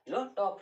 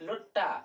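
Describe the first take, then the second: First: Both words are said fully and separately. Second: The words blend into one reduced word.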